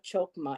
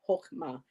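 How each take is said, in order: First: The word begins with a hard K sound. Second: The word begins with an H sound. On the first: The speaker calls it wrong. "I saw the hard C H and I thought it was a Chokma" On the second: The speaker calls it right. "it's Hokma"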